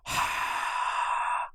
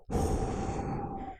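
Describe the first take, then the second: First: Slow warm "ha" breath into hand; hot breath out. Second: Fast "who" blow into hand; cold blow out. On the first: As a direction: breathe out warm through open mouth. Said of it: "Put your hand over your mouth". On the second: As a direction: blow a quick cool stream. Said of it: "And now go". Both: Shown as a demonstration.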